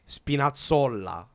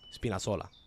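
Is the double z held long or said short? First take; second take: long; short. First: The double z is held long. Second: The double z is said short.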